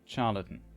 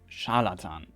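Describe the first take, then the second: First: It has the English pronunciation of the word. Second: It has the German pronunciation of the word. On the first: "That should be the pronunciation" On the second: "In German it's"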